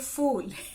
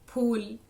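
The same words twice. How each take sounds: First: It starts with an English-like 'f' sound. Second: It starts with an aspirated 'ph' sound. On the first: The speaker calls it wrong. "फूल आपने कह दिया तो वो तो अंग्रेजी भाषा का फूल हो गया" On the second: The speaker calls it right. "जो सही उच्चारण है इन शब्दों का"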